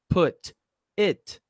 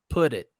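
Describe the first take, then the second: First: The two words are said separately. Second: The two words are linked together. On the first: "ao invés de falar put it" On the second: "eu posso falar put it"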